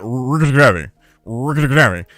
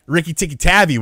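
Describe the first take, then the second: First: "Rikki Tikki Tavi" slurred into one garbled word; Clay's mangled pronunciation. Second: Said in the usual way. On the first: Retold or imitated. Friend calling a kid by nickname, "Rikki Tikki Tavi" garbled. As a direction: run "Rikki Tikki Tavi" together, rolled and mumbled. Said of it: "Clay couldn't really say Rikki Tikki Tavi well". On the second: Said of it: "Clay couldn't really say".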